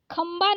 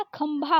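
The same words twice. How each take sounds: First: खंबा with a plain b, no puff of air; wrong unaspirated ब. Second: खंभा with breath released on bha; correct aspirated भ. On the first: Teacher showing the common mistake, खंबा with plain b. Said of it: "खंबा नहीं होता, खंभा होता है". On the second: Teacher correcting the spelling, खंभा with aspirated bha. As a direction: puff the भ in खंभा. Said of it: "खंबा नहीं होता". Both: Shown as a demonstration.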